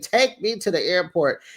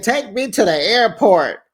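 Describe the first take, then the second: First: Said in the usual way. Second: Heated demand. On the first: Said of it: "Jackie said". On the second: Retold or imitated. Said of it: "She said".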